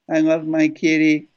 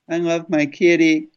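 Both takes have the same delivery.

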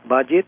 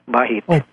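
First: The middle consonant is not an h sound. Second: The middle consonant is an h sound. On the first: This is how some other people say it. The speaker calls it wrong. "Some pronounce it as Bajit" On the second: This is how the name is properly said. The speaker calls it right. "it's pronounced as H, as Bahit"

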